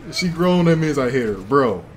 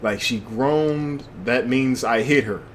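First: Laughing repeat. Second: Said in the usual way. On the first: Real, not acted. Repeats line laughing harder.

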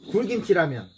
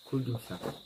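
First: Excited. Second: Quiet. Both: Real, not acted.

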